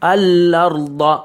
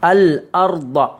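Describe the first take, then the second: First: The L runs doubled into the vowel. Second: A clear glottal stop follows the L. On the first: The speaker calls it wrong. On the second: The speaker calls it right.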